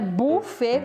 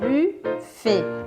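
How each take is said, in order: First: The first vowel sounds like a Portuguese 'oo'. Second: The first vowel is a rounded French 'u'. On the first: The speaker calls it wrong. "também não é buffet com U igual em português" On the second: The speaker calls it right. "é aquele U com biquinho, bem do francês mesmo"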